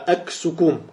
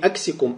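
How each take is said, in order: First: The second vowel is a u sound. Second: The second vowel is an i sound. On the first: The speaker calls it right. "а «аксукум»" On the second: The speaker calls it wrong. "Правильно говорить не «аксикум»"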